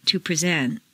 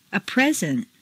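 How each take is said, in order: First: PreSENT, stressed on the second syllable. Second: PREsent, stressed on the first syllable. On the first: Teacher models verb "present", second-syllable stress. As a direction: hit SENT in "present". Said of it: "to the second syllable". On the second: Teacher models noun "present", first-syllable stress. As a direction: hit PRE in "present". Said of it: "first syllable for nouns". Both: Shown as a demonstration.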